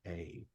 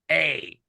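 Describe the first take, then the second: First: The word is said in a sad tone. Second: The word is said in a stern tone. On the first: "feel sad and just say" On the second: "or stern and be like"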